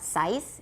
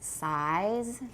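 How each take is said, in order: First: The final consonant is a voiceless hissing s. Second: The final consonant is a voiced buzzing z. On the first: The speaker calls it wrong. "remember it's not size" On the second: The speaker calls it right. "it's size. Because it's voiced at the end"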